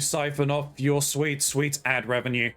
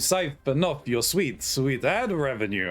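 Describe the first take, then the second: First: It is said in the speaker's normal voice. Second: It is said in a put-on Dracula accent.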